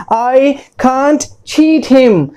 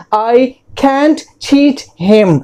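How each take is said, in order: First: Can't with a long ah, KAHNT; first pronunciation. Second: Can't with the a of cat; second pronunciation. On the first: Teacher puts the first pronunciation in a sentence, can't with long ah. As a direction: say "can't" as KAHNT, each word separate and slow. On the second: Teacher puts the second pronunciation in a sentence, can't with short a. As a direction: say "can't" as KANT, each word separate and slow. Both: Shown as a demonstration. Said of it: "दो pronunciation हैं".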